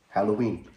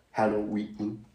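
First: Said in the usual way. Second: Halloween said as Hallowe'en, keeping a trace of "even"; older contracted form. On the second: Shown as a demonstration. Showing how the name shrank, Halloween with its old ending half kept. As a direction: say Halloween as "hallow-EET-n", softly. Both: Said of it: "it's called Halloween because".

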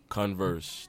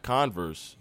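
First: Converse as kun-VERSE, weight on the end; unstressed first syllable in Converse, lean on VERSE; stress on second syllable. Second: Converse as CON-verse, weight up front; stress on first syllable. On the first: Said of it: "you gotta switch the emphasis". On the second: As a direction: hit CON in converse, full open vowel. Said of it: "not converse". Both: Shown as a demonstration.

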